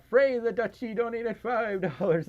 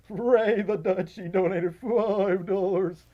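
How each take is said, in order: First: Higher, wavering donation read; high-pitched with a touch of wobble; slight accidental vibrato. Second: Slow, loud, wobbling announcement; higher, stretched words quivering on every vowel; exaggerated vibrato. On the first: Real, not acted. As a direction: let a light vibrato slip into the announcement. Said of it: "I had, I had a vib-, vibrato going for a second". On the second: Shown as a demonstration. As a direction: draw it out with a hammed-up vibrato. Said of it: "vibrato going for a second".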